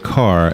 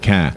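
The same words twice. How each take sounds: First: It is said in a general American accent. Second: It is said in a Boston accent. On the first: The speaker calls it wrong. "We all say car" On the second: The speaker calls it right. "except for Boston. They call it a car"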